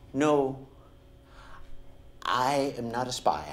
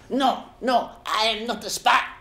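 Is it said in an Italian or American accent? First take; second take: American; Italian. First: It is said in an American accent. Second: It is said mimicking an Italian accent.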